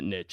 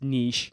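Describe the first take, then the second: First: The word is said the American way. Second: The word is said the French way. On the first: The speaker calls it wrong. "I'm American and I say niche weird" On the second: The speaker calls it right. "probably more pronounced niche. It's a French word"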